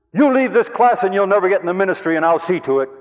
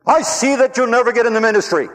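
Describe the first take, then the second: First: Loud, high, warning threat; angry professor threat. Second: Loud, high, furious threat; furious professor. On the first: Professor threatening a quitting student, loud angry warning. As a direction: hold the ministry over his head. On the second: Professor raging at the student who quit, furious shout. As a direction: spit the warning out in rage. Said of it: "He got mad again, angry, furious". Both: Retold or imitated.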